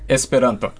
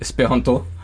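First: It is said in a standard Esperanto pronunciation. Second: It is said in a French accent, stressing the end. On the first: The speaker calls it right. "the closest I can get to the standard pronunciation would be Esperanto" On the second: The speaker calls it wrong. "French Esperanto speakers would be more likely to say Esperanto"

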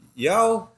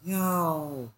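First: It is said in a questioning tone. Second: It is said in an apologetic tone.

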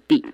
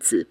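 First: The character is read as dì. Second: The character is read as zǐ. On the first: The speaker calls it wrong. "不念地" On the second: The speaker calls it right. "那个字念子"

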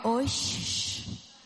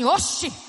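First: It is said with a Rio de Janeiro carioca accent. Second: It is said with a strong northeastern Brazilian accent.

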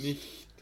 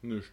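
First: It is said in standard German. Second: It is said with a Saxon accent.

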